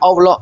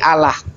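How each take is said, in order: First: The L sounds thick and heavy. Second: The L sounds thin and light. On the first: The name as used in Islam. "Saya enggak bilang Allah" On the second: A word meaning Elohim. "tapi Allah. Allah itu artinya Elohim"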